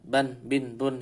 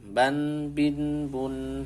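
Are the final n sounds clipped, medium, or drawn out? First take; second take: clipped; medium. First: The final n sounds are cut off short. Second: The final n sounds flow for medium length. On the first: The speaker calls it wrong. "ini salah" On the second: The speaker calls it right. "antara itu. Jadi"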